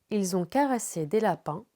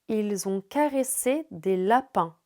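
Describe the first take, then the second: First: It is read at a normal, quicker pace. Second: It is read at a slow, deliberate pace.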